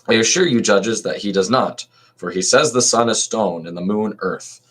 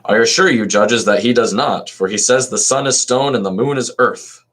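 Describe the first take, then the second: First: It is read in his normal voice. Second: It is read in a distinct voice for the accuser.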